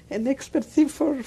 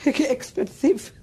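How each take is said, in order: First: Said in the usual way. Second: Laughing through the words, slow. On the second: Real, not acted. Survivor laughing at her old nickname, slow and amused. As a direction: chuckle it out, drawn slow.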